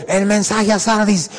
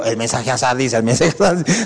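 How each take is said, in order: First: Slow, forceful single call; strong single call. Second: Said in the usual way. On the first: Retold or imitated. Preacher imitates God calling once, slow and forceful. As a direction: say it once, with power. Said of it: "Solo una vez, fuerte". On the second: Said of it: "Y no repitió".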